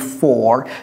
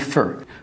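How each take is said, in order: First: The word has a full, clear vowel. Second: The word has a weak, reduced vowel. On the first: The speaker calls it wrong. "j'ai pas dit for" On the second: The speaker calls it right. "j'ai dit for"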